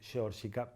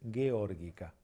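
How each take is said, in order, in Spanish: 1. La primera g es una j gutural del español. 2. La primera g es dura, como en go. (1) "a veces suena como cheto decir" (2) "no, es"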